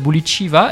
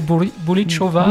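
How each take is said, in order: First: The surname is said with French-style vowels, ending -chiva. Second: The surname is said Russian-style, with a stressed -cho-. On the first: The speaker calls it wrong. "ça se prononce à la française" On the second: The speaker calls it right. "et finalement c'est"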